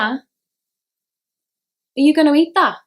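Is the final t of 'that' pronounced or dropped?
pronounced. The final t of that is pronounced.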